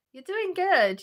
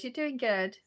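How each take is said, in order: First: Higher and louder, cheering on; bright encouragement. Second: Said in the usual way. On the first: Real, not acted. Reading a kind chat message aloud, higher and louder encouragement. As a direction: lift it up like a pep talk.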